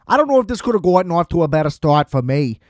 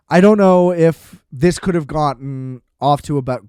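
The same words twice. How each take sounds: First: Weird hybrid Boston accent, hammed-up and quick; horrible Boston accent. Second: Said in the usual way. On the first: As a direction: rattle it off in a bad Boston accent. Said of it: "that was some weird Boston hybrid, horrible accent".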